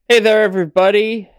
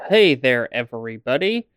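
First: The words are said casually, without careful articulation. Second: The words are said with careful, clear articulation.

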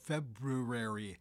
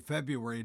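First: The first R is clearly pronounced in the word. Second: The first R is dropped from the word. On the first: The speaker calls it right. "the proper pronunciation of February" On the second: The speaker calls it wrong. "We always seem to lose that first R"

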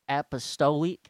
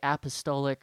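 First: It is said in an exaggerated backwoods rural accent. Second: It is said in a plain, ordinary accent. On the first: "They pronounce it like a backwoods hick" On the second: "They don't pronounce it like a normal person"

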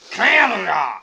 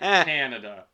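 First: The word is said loudly with strong emphasis. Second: The word is said plainly without extra emphasis. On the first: The speaker calls it wrong. "People don't announce Canada like" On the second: The speaker calls it right. "They pronounce it Canada"

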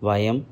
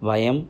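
The two takes are said the same way.

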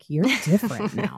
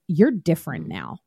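First: It is said in a warm, approving tone. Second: It is said in a scornful, belittling tone. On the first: The change is seen as a good thing. "not in a like" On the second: The change is seen as a bad thing. "it said it in a derogatory way"

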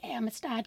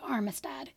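First: It is said with no R after the first vowel. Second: It is said with an R after the first vowel. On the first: The speaker calls it right. "It is the Amistad case" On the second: The speaker calls it wrong. "not the Armistad case, or however I pronounced it"

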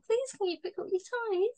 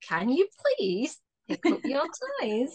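First: It is said in a sweet, gentle tone. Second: It is said in a stern, warning tone.

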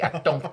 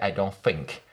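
First: It is said in a Malaysian accent. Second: It is said in a London accent.

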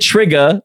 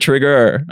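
First: The word ends in an open uh vowel. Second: The word ends with a full er sound. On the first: It is casual everyday speech. "I wouldn't say trigger" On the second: It is careful, proper speech. "I would finish the ER in most words"

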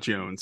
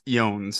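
First: The name begins with a J sound. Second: The name begins with a Y sound. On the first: The speaker calls it wrong. "not Jones" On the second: The speaker calls it right. "it's pronounced Jones"

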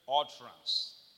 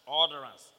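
First: It is said in a Nigerian accent. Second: It is said in an American accent. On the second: "like Americans say utterance"

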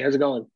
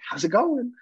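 First: It is said casually, at low energy. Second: It is said with exaggerated, high enthusiasm. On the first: A relaxed, low-pressure greeting. The speaker calls it right. "How about a little small talk?" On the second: An overeager greeting that puts a child off. The speaker calls it wrong. "get down like in a crouch and be like"

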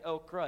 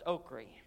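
First: The word is said in a general pronunciation. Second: The word is said in a local regional pronunciation. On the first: This is how outsiders say it. The speaker calls it wrong. "we don't say okra" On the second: This is how people back home say it. The speaker calls it right. "Where I'm from, ... it's okra"

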